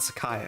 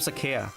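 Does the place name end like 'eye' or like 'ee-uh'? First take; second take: eye; ee-uh. First: The name ends with an 'eye' sound. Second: The name ends with an 'ee-uh' sound. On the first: It is the accepted pronunciation. The speaker calls it right. "that's the, the right way to say it" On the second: It is the pronunciation the speaker used as a child. The speaker calls it wrong. "In my mind, it sounds like Sakea"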